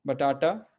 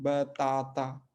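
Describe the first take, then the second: First: बटाटा with hard retroflex t's; Indian-style बटाटा with retroflex t; retroflex pronunciation. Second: Slow teacher's model of बताता; Portuguese pronunciation. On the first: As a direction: say बटाटा briskly, tongue curled back on each t. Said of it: "रेट्रोफ्लेक्स है". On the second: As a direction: say बताता syllable by syllable, open long aa. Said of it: "पुर्तगाली शब्द बताता है". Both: Shown as a demonstration.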